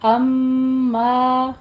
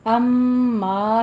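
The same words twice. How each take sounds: First: अम्मा with a nasal hold on म and a long मा; right version. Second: अम्मा said quickly with no nasal hold; wrong version. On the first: Teacher gives the correct reading, slow. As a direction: hum the म, then stretch मा, higher and louder. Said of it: "पहले ये गुन्ना करना है". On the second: Teacher shows the wrong reading. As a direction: clip अम्मा, no hum on the म. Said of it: "इसको अम्मा नहीं कहना". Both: Shown as a demonstration.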